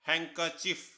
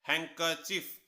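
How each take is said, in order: No difference in how they are said.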